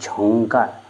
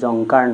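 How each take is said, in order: First: The first consonant is said with aspiration. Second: The first consonant is said without aspiration. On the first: The speaker calls it right. "ঝংকাৰ, ঝ" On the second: The speaker calls it wrong. "জংকাৰ নহয়"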